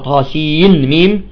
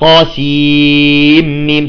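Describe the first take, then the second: First: The n is pronounced clearly before the m. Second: The n is merged into the following m. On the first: The speaker calls it wrong. "ما نقرأها طاسين ميم" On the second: The speaker calls it right. "تقرأ طاسيم"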